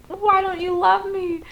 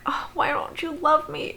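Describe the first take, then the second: First: High nasal mocking wail; whiny Paul. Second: Breathy, whispered mock whine; whiny Chris. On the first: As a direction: squeal it like a needy brother. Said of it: "And then Paul's like". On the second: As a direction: whimper it like a pitiful brother. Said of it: "then Chris is like".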